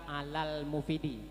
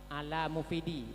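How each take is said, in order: First: An 'l' sound is heard after 'ala'. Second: No 'l' sound is heard after 'ala'. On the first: The speaker calls it right. "bukan alal mufidi" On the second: The speaker calls it wrong. "tidak men, menampakkan bacaan alif al"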